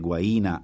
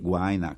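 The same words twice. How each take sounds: First: The stress falls on the second syllable. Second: The stress falls on the first syllable. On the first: This is the form the rules prescribe. The speaker calls it right. "si pure dovrebbe guaina" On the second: This is the form most people use. The speaker calls it wrong. "come la maggior parte delle persone dicono"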